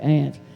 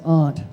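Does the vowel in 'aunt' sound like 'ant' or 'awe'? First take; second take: ant; awe. First: The vowel sounds like the one in ant. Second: The vowel sounds like the one in awe. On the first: "I had to learn how to speak American English in North Carolina, so I say aunt" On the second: "but she says aunt"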